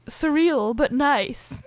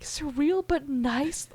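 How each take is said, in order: First: Said to her as a statement, falling at the end; falling tune on "but nice" as if sure; awkward compliment. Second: Rising on "Surreal" and "but nice?" as a question; doubting replay. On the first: William telling Anna, falling confident statement. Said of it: "then he's like". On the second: William alone after she leaves, questioning rising tune. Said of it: "he's like". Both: Retold or imitated.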